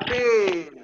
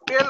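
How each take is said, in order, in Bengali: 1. স্বরধ্বনিটি লম্বা ও টেনে উচ্চারিত হয়। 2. স্বরধ্বনিটি ছোট ও ঝটপট করে উচ্চারিত হয়। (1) "এর উচ্চারণটা লম্বা হবে" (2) "পেল হবে না"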